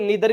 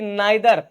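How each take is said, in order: First: The first vowel sounds like 'ee'. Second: The first vowel sounds like 'eye'. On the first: "इसको नीदर भी बोलते हैं"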